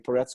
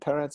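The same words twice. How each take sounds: First: The stress is on the last syllable. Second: The stress is on the first syllable. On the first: The speaker calls it wrong. "Hebrew names were stressed on the last syllable" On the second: The speaker calls it right. "the stress is on the first syllable"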